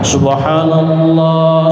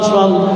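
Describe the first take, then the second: First: The word is pronounced clearly and fully. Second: The word is slurred and swallowed. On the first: The speaker calls it right. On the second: The speaker calls it wrong. "di akhir gak jelas"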